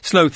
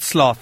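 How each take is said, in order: First: It is said with the non-American pronunciation. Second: It is said with the American pronunciation. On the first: The speaker calls it right. "you're right. I hate to say it, but you're right. Sloth" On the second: The speaker calls it wrong. "not sloth"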